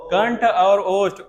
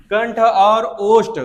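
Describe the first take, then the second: First: कंठ और ओष्ठ slow, और lightly stretched, less loud; calmer repeat. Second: कंठ और ओष्ठ said louder and slow, और stretched; emphatic term. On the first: Teacher repeating कंठ और ओष्ठ slowly as a recap. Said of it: "कंठ और ओष्ठ, आओ". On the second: Teacher stressing the term कंठ और ओष्ठ loudly to class. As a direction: spell out कंठ और ओष्ठ loud and slow, leaning on और. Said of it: "अरे वो तो होता ही कंठ और कंठोष्ठ". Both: Shown as a demonstration.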